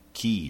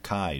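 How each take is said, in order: First: The word sounds like 'key', rhyming with tea. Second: The word sounds like 'Kai', rhyming with sky. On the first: This is the official pronunciation. "I think the official pronunciation is key" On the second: This is a personal habit of pronunciation. "but I always pronounce it Kai"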